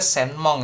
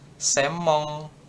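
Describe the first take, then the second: First: A separate n sound comes before the m. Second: The n merges into the m sound. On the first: "harusnya senmong" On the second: "Tapi bacanya semong"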